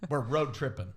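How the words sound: It is said in a relaxed rural country accent. It is how people raised in the country speak. "for those of them that grew up in the country"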